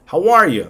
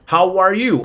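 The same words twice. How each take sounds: First: "How are you?" with "you" weakened to "ya"; casual reduced form. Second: Said in the usual way. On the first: Shown as a demonstration. Teacher offers the alternative, casual reduced form. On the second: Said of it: "pues sí, digan".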